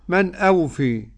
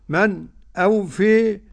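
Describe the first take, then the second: First: The two words run on without a break. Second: A brief catch separates the two words. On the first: "وعدمه" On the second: "له السكت"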